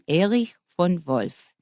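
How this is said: The name is said with a German pronunciation. "In German, it would be"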